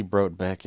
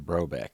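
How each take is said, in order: First: Brobeck with a T sounded before the b; T pronounced. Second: Brobeck with the T left silent. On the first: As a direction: say Brobeck as "brote-beck". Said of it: "It's technically". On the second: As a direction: say Brobeck as "bro-beck", no T sound. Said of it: "pronounce it like the T is silent". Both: Shown as a demonstration.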